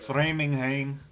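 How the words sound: It is said in a Brazilian Portuguese accent.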